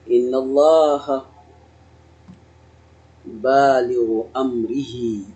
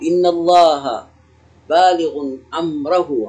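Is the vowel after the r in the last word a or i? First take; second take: i; a. First: The last word has an i vowel after r. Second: The last word has an a vowel after r. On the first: The object is joined to the participle as a possessive. "اخفضه على أنه مضاف إليه" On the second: The participle governs its object directly. "على الإعمال"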